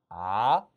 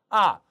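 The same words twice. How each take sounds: First: The pitch rises from mid to high. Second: The pitch falls sharply from high to low. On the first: "이성" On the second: "사성"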